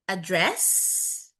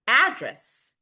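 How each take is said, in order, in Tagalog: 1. Nasa pangalawang pantig ang diin. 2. Nasa unang pantig ang diin. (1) "Pag nasa second syllable ang stress, yun na, verb na siya" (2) "pag nasa unang syllable yung stress, it functions as a noun"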